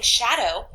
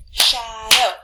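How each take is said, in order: First: Said in the usual way. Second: "shadow" as two loud beats, sha and dow; syllable by syllable. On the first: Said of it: "I could go shadow". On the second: Shown as a demonstration. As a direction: punch out both chunks of "shadow" separately. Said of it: "So I say it, I clap it".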